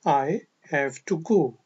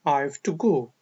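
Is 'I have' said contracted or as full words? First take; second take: full; contracted. First: I have is said as two full words. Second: I have is shortened into one quick syllable.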